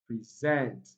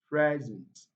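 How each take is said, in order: First: The stress is on the second syllable. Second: The stress is on the first syllable. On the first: It is a verb. "verbs are often" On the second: It is a noun or adjective. "often stressed at the first syllable"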